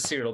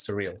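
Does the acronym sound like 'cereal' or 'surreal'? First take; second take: cereal; surreal. First: It sounds like the word cereal. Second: It sounds like the word surreal. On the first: "You can pronounce it as cereal" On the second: "but I prefer to pronounce it as surreal"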